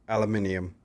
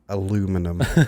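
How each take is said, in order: First: It is said the British way. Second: It is said the American way. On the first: "the first tongue slip" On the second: "The American English version, not the Queen's English"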